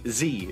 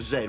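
First: The letter is said as 'zee', American style. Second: The letter is said as 'zed', British style.

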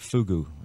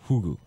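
First: The word starts with an F sound. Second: The word starts with an H sound. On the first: "They call it fugu" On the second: "because they don't say F, do they, in Japan? They say hugu"

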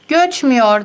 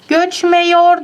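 First: The vowel before -yor is an ü. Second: The vowel before -yor is an e. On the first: The speaker calls it right. "E, ü'ye dönüştü" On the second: The speaker calls it wrong. "Göçmüyor demedim ben"

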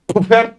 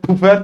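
First: The pf is not said as a plain f. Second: The pf is said as a plain f. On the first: The speaker calls it wrong. "pufert değil" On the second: The speaker calls it right. "direkt F diye okuyorsunuz"

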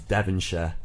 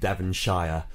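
First: The ending is a short, reduced 'sher'. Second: The ending is a full 'shire' like 'fire'.

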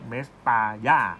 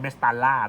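First: The double L is said as a Y sound. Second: The double L is said as an L sound. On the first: This is the Spanish reading of the name. "ถ้าภาษาสเปนจะเรียกเมสตาย่า" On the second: This is the English reading of the name. "ถ้าอ่านตามภาษาอังกฤษจะเรียกเมสตาล่า"

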